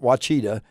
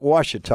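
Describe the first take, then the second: First: The middle consonant sounds like 'ch'. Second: The middle consonant sounds like 'sh'. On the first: The speaker calls it wrong. "it's not Wachita" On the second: The speaker calls it right. "It's Lake Washita"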